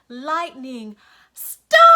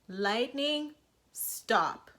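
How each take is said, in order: First: It is yelled as loud as possible. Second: It is said only a little loudly.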